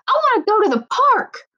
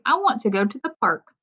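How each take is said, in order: First: It is said in an excited way. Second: It is said in a calm, plain way.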